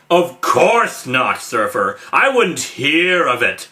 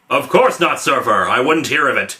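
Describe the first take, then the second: First: Certain words are given weird heavy emphasis. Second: It is read without heavy word emphasis.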